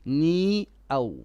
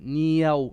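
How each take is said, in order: First: The two words are kept apart without joining. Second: The two words run together with a y sound. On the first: The speaker calls it right. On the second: The speaker calls it wrong. "Don't say duniyaw"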